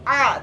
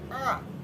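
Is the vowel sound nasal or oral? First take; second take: oral; nasal. First: The sound comes from the throat, not the nose. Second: The sound passes through the nose. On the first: The speaker calls it right. "harus a" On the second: The speaker calls it wrong. "tidak boleh a"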